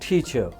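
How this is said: The final r is dropped from the word. "अगर ये गोरा बोलेगा उसको वो बोलेगा टीचर।"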